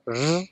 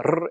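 First: The r buzzes like a z without trilling. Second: The r is a full rolled trill. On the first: This is how Costa Ricans say it. "when it starts to roll, it never quite starts the rolling" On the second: This is the usual pronunciation elsewhere. "which are normally rolled"

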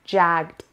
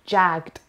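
Both takes have the same delivery.

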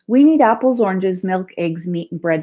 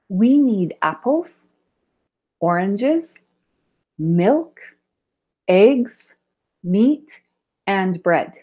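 First: The items run together with no pauses. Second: There are short pauses between the list items.

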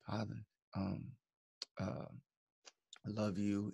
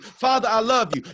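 First: The words are said quietly and calmly. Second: The words are said loudly and forcefully.

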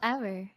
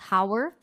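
First: The word starts with no h sound. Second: The word starts with an audible h sound. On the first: The speaker calls it right. "it's pronounced hour" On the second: The speaker calls it wrong. "I would pronounce it as hour"

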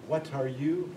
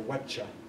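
First: The words are said fully with a separate t. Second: The t and y merge into a 'cha' sound. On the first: "you don't know if you're going to say what are you or" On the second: "When it becomes a cha sound, that's palatalization"

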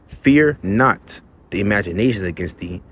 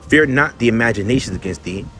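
First: The line is read at a slower pace. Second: The line is read at a fast pace. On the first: "let me read it slower" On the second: "I read it fast sometimes"

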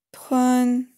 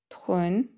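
First: The pitch stays high and level. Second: The pitch rises from mid to high. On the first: "Первый тон" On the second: "второй тон"

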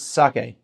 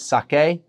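First: Both syllables get equal length and emphasis. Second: The second syllable is stressed more strongly. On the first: The speaker calls it right. "every syllable is the same amount of time and the same emphasis" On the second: The speaker calls it wrong. "we sometimes emphasize the K as sake"

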